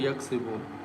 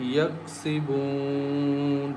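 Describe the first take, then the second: First: The vowel before the final n is short. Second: The vowel before the final n is long. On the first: The speaker calls it wrong. "Don't say" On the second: The speaker calls it right. "we recite with stretching the sound as"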